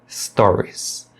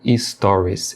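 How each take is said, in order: First: The word starts directly with the s. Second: A short vowel is added before the s. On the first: The speaker calls it right. "O correto é stories. Você só pronuncia o som de S" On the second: The speaker calls it wrong. "falando e-stories"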